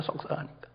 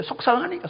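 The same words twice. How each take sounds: First: 속상하니까 breathed out as a soft whisper; whispered echo. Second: 속상하니까 said high and rising, with feeling; emphatic repeat. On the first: Preacher echoing the mother's hurt, whispered. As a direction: let 속상하니까 fall away to a whisper. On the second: Preacher stressing the mother's hurt, high rising. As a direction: lift 속상하니까 up into a pleading rise. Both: Shown as a demonstration.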